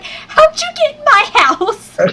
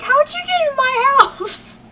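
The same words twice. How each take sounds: First: Much higher, slow, confused squeak; mock confused squeak. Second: Much higher, slow, half-crying squeal; mock confused squeal. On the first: Retelling how she reacted to the creep, squeaking high. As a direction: play up the baffled squeal. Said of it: "I'm sitting there like". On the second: Retelling the creep story again, a high teary squeal. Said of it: "It was like".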